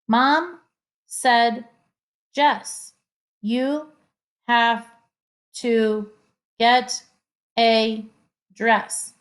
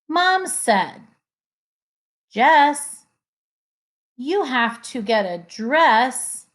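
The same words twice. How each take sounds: First: Each word is read separately, like a robot. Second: Words are grouped into smooth, connected phrases. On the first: The speaker calls it wrong. "listen to how I would sound like a robot" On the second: The speaker calls it right. "scoop our words and scoop our phrases"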